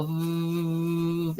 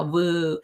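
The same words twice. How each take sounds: First: Voo buzzed with teeth on the lips; slow voo, teeth touching lips; voo sound. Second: Woo with round open lips; plain woo, no teeth on lips; wrong woo sound. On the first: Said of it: "we're gonna go voo". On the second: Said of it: "we're not gonna go woo, we're gonna go voo". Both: Shown as a demonstration.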